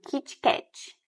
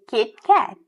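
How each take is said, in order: First: It is said with Portuguese pronunciation. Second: It is said short, with English pronunciation. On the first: The speaker calls it wrong. "É a pronúncia do português" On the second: The speaker calls it right. "Bem curtinho"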